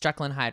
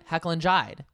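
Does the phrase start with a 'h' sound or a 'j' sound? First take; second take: j sound; h sound. First: The first word starts with a j sound. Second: The first word starts with an h sound. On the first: The speaker calls it right. "it's Jekyll and Hyde, right?" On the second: The speaker calls it wrong. "We know what Teresa says"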